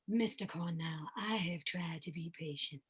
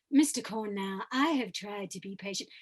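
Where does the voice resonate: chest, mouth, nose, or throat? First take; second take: chest; throat. First: The voice is low and resonates in the chest. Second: The voice mixes chest and throat resonance. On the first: This is one character. "I can choose to have a character voice down here" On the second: This is a different character. "a little bit of chest voice and a little bit of Farringham voice"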